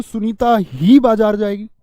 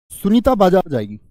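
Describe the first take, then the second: First: ही stressed, whole line slow and emphatic. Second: Said in the usual way. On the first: Shown as a demonstration. Teacher to students, stressing ही in the example. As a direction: lean hard on ही as the teacher demonstrates. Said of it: "लेकिन मैं जोर देके बोलूं". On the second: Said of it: "जैसे मैं बोल दूं".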